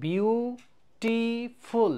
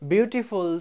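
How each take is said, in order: First: বিউটিফুল split into বিউ... টি... ফুল, each held long; বিউটিফুল stretched out, with a break after বিউ and after টি; syllable by syllable. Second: Said in the usual way. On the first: Shown as a demonstration. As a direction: say বিউটিফুল slowly as three separate beats. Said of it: "তিনবার উচ্চারণ হয়েছে". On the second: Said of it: "বিউটিফুল আমাদের কয়বার উচ্চারণ হয়েছে".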